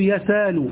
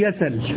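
First: A long vowel replaces the glottal stop. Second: The glottal stop is dropped, leaving a short vowel. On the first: "وتقلب ألفا" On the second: "وتحذف"

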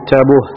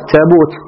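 First: The word ends with an h sound. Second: The word ends with a t sound. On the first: This is a rare, irregular pausal form. "أبدلوا من تاء الجمع هاء في الوقف" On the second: This is the usual form. "أن يأتيكم التابوت"

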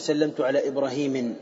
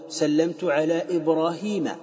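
First: The name ends in -in with an n. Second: The name ends in a short -a without n. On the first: The speaker calls it wrong. "لا تقول" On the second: The speaker calls it right. "تقول"

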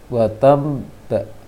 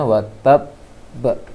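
First: The doubled consonant sounds nasal, like an m. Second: The doubled consonant is a clear, firm b. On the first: The speaker calls it wrong. "seperti ada mim namun tidak sempurna" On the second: The speaker calls it right. "harusnya watab ba"

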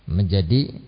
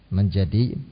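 The two takes are said the same way.

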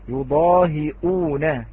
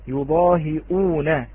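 The two takes are said the same way.

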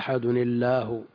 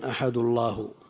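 First: An n sound links the two words. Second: The first word ends with no n sound. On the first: The original, basic form of the word. "وإلا الأصل قل هو الله أحد الله" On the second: The lighter reading, avoiding two consonants meeting. "قرأ جماعة أحد الله"

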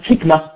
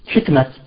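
First: The word ends with an h sound. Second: The word ends with a t sound. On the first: This is the original form of the word. "أصلها حكمة" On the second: This is the everyday name form. "بعض الناس يقفون عليها بالتاء فانتشرت هذه الكلمة"

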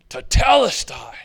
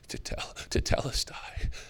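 First: The word is shouted out loudly. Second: The word is spoken in a soft whisper. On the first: The speaker cries out in agony and announces completion. The speaker calls it right. "And what's he scream out?" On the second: The speaker is too broken to speak with strength. The speaker calls it wrong. "He can only whisper it"

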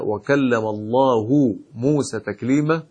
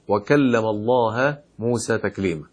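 First: The word Allah ends with a 'u' vowel. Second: The word Allah ends with an 'a' vowel. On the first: God spoke to Moses. The speaker calls it right. "وطلبوا منه أن يقرأ قوله سبحانه وتعالى" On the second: Moses spoke to God. The speaker calls it wrong. "أن يقرأها بقوله"

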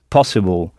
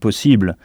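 First: The stress is on the first syllable. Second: The stress is on the second syllable. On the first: "en insistant bien sur le pas" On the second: "En français, on dit possible"

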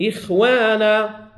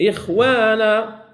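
No difference in how they are said.

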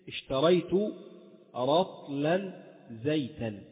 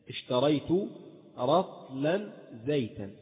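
The two takes are said the same way.

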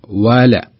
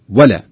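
First: The first vowel is drawn out long. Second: The first vowel is clipped short. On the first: The speaker calls it right. "عط الواو زيادة اشبعها شوي عطها حقها بمعنى لا تختلسها" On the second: The speaker calls it wrong. "فلا تقول ولا ولا"

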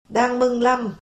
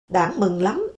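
First: The first word has a level tone, Thạch Thất style. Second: The first word has a dipping standard tone. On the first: "thạch thất hóa mất rồi" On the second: "Tức là"

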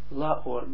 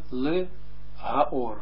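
First: The phrase is contracted into two syllables. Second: The phrase is said in three full syllables. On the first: The article is swallowed into the preposition. "Daarom is het la" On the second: The article is spelled out separately. "Dus eigenlijk moet het zijn le ha or"

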